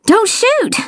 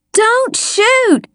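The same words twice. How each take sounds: First: Very high, strained wheeze; wheezed plea. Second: Very high scream at restrained volume; screamed plea. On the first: Child surfacing from the creek begging, high wheeze. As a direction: squeeze out a plea, short of breath. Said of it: "I wheezed". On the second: Child begging the armed detective, restrained high scream. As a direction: scream in alarm without real loudness. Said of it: "I screamed". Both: A narrator's reading.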